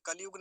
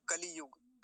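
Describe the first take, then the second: First: कलयुग as "kal-yug"; कलयुग with no i after ल; wrong कलयुग. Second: कलियुग as "ka-li-yug"; कलियुग with a clear लि; short i sounded. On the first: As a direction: run ल straight into यु in कलयुग. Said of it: "नहीं होता". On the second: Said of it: "ह्रस्व विकार की मात्रा जरूर बोलेंगे". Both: Shown as a demonstration.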